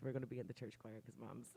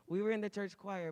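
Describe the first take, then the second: First: Said in the usual way. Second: Were punched higher and louder, falling at the end; stress on were. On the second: Shown as a demonstration. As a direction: lean hard on were, then let choir fall.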